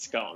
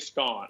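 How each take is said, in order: First: The word is said in a plain, everyday way. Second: The word is said in a fancy, posh way. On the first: This is the speaker's usual daily way. "on a daily basis, it's scone" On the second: The speaker is trying to sound fancy. "When I'm trying to feel fancy, I say scone"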